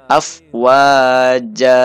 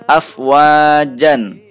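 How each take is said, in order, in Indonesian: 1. Kata ini berakhir dengan vokal a panjang. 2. Kata ini berakhir dengan suku kata -an. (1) "karena wakaf maka dibaca fathah menjadi afwaja" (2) "di situ ada tanwin fathah"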